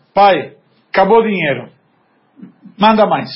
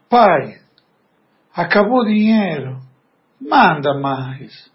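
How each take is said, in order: First: Blunt, commanding read with falling ends; curt demand. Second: Gentle plea. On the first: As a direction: bark the request like an order. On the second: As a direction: ask humbly, lingering on manda mais. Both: Retold or imitated. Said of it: "mas a entonação".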